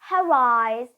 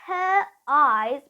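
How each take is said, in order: First: An R sound joins the two words together. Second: The two words are said separately, without R.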